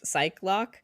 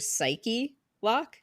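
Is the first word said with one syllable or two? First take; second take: one; two. First: The first word has one syllable. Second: The first word has two syllables. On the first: "you pronounce it as psych lock" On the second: "the game may be going for psyche lock"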